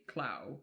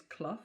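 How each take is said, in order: First: "Clough" said as "clow", rhyming with cow; southern pronunciation. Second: "Clough" said as "cluff", rhyming with rough; northern pronunciation. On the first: Host gives the southern way to say "Clough". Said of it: "if it was down south, we would probably say". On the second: Host guesses the northern way to say "Clough". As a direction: say "Clough" with the short northern uh vowel. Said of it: "I have no idea how they pronounce it up, up north". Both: Shown as a demonstration.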